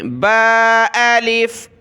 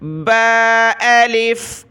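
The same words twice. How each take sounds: First: Slow با الف again; letter drill; recited ba alif. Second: Slow drawn-out با الف; letter drill; recited ba alif. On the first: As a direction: recite clearly. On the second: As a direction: recite it distinctly. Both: Shown as a demonstration. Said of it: "توجہ دیں".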